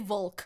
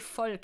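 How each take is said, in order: First: The word begins with a W sound. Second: The word begins with an F sound. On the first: The speaker calls it wrong. "Don't say Volk. That's nothing" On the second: The speaker calls it right. "Can you say Volk instead?"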